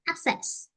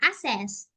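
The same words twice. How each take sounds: First: The word is said with a clear K sound. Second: The word is said without a K sound. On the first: The speaker calls it right. "I say act, act, access. It's right" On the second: The speaker calls it wrong. "I would say asset, uh, access... Because I missed K sound"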